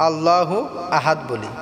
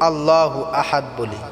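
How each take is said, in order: The two takes are said the same way.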